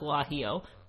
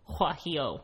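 First: The word begins with a hard G sound. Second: The word begins with an H-like sound. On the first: The speaker calls it wrong. "No, not guajillo" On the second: The speaker calls it right. "G's sound like H's"

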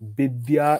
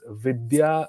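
First: It is said in a Bengali accent, with a B. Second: The name begins with a V sound.

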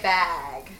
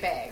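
First: It is said with a standard, non-Minnesota vowel. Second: It is said with a Minnesota accent vowel.

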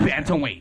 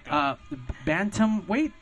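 First: It is said quickly as one smooth word. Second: It is said slowly, split into separate parts. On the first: "just how you said it exactly, but fast" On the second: "Said it was three words"

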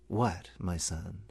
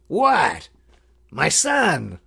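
First: It sounds warm, curious and probing. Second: It sounds suspicious and exasperated. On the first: The speaker sincerely wants to know the son's heart. "this is actually more akin to the inquiry. It's interrogative, it's a probing question" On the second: The speaker asks what the son has done wrong now. "just inflection alone can change the meaning of that. ... That's kind of like, what have you done now?"

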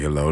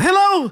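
First: It is said in a deep, low voice. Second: It is said in a high, girlish voice.

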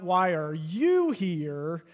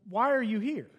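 First: It sounds accusing and judgmental. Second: It sounds genuinely curious and open.

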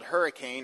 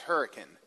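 First: It is said in the general, non-local way. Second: It is said in the local West Virginia way.

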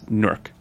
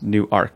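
First: The second syllable has a reduced schwa vowel. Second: The second syllable has a full 'ark' vowel. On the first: The speaker calls it right. "It's Newark, which is a sort of schwa sound" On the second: The speaker calls it wrong. "it's not pronounced New Ark"

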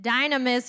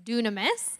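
First: The first syllable sounds like 'die'. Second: The first syllable sounds like 'doo'. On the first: "You can also maybe pronounce it dynamis, which would make us think of the word dynamite" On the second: "the Greek word that they're really referencing is dunamis"

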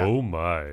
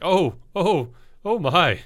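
First: The voice is low and deep. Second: The voice is light, high and small. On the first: The speaker calls it right. "drop the voice, add in the bass" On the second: The speaker calls it wrong. "Sam's little excited noise of... Not even like a manly like grunt"

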